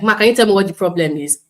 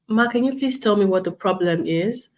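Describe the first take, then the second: First: The tone is sharp and rude. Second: The tone is calm and polite. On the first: The agent is impatient with the client. The speaker calls it wrong. "I'm sounding rude" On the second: The agent respects the upset client. The speaker calls it right. "That is me measuring my tone"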